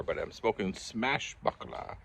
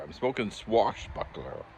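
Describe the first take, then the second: First: "Smashbuckler" said with an s-m start instead of s-w; tongue-tied "Smashbuckler" at a slow pace; mispronounced brand name. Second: "Swashbuckler" said right with s-w, slowly; slow careful "Swashbuckler"; corrected pronunciation. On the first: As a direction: slip into "Smashbuckler", said slowly. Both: Real, not acted. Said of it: "I said it again wrong".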